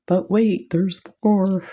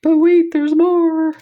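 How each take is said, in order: First: Playful infomercial pitch; light infomercial host voice; mock infomercial. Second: Much higher, louder hammed-up TV pitch; over-the-top infomercial shout; infomercial announcer. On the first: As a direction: tease it like a TV salesman. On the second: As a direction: sell it like a late-night infomercial host. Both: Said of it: "I feel like an infomercial".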